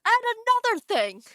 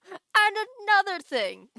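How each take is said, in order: First: Louder, huffy start of a rant; a first mock-indignant go at another thing; mock angry. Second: Higher, louder hammed-up indignant shout; mock angry rant. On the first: Streamer voicing her angry emote, louder mock-huffy line. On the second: Streamer voicing her angry emote, hammed-up shouted rant. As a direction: really lean into another thing like a cartoon rant. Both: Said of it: "here's me being angry".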